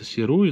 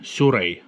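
First: The name is said as 'see-roo-ee'. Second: The name is said as 'syoo-ray'. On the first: This is how the name reads in writing. The speaker calls it wrong. "хоть и читается Сируи" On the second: This is how the name is pronounced in Japanese. The speaker calls it right. "но произносится как Сюрей с японского"

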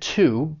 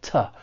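First: The word is said with a full 'oo' vowel. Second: The word is said with a reduced 'uh' vowel. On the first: "When you're stressing it, it's pronounced, just like I said, to" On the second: "when it's unstressed, and it's gonna sound more like ta"

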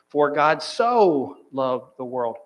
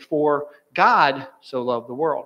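First: The stress is on "so". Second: The stress is on "God".

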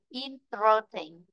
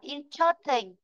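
First: The word is said slowly and drawn out. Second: The word is said at a normal pace.

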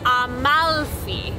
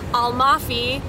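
First: The L sound in the middle is held long. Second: The L sound in the middle is short. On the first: The speaker calls it right. "It is actually Amalfi. And if you really hang on the L" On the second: The speaker calls it wrong. "more natural for us to say Amalfi in English"

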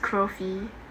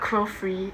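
First: No R sound follows the F. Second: An extra R sound follows the F. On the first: The speaker calls it right. "there's no second R" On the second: The speaker calls it wrong. "So it's not Crofree"

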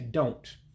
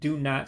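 First: The words are shortened into one syllable. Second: Two full words are said separately. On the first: "sometimes we say don't" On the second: "Instead of saying do not"

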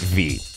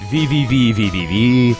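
First: The name is said as a single letter. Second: The name is said as repeated letters. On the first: "cool people pronounce it V" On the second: "Some other people call it V-V-V-V-V-V"

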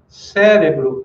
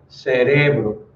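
First: The stress falls where Portuguese places it. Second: The stress falls where Spanish places it. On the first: "Cérebro em português" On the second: "em espanhol vai ser cerebro"

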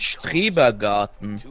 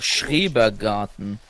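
First: The word begins with an 'str' sound. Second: The word begins with an 'schr' sound. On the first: The speaker calls it wrong. "Ich habe immer gedacht, das heißt Strebergarten" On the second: The speaker calls it right. "Aber es heißt einfach Schrebergarten"

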